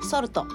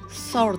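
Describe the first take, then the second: First: It is said with Japanese katakana sounds. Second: It is said with an English-like s sound. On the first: The speaker calls it wrong. "以前の私のカタカナ英語" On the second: The speaker calls it right. "この私のS が上達したか"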